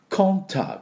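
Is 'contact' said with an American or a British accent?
British. The first vowel is a rounded 'o' sound. "イギリス人だとContact Contact っていう風になると思います"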